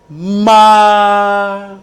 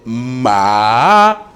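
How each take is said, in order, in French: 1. Il se dit avec le premier ton. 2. Il se dit avec le deuxième ton. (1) "le premier ton c'est ma" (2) "Le second ton c'est ma"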